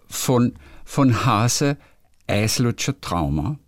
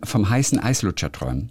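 First: It is said in Viennese dialect pronunciation. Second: It is said in Standard German pronunciation.

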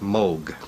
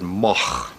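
First: The name is said the German way. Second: The name is said the Dutch way.

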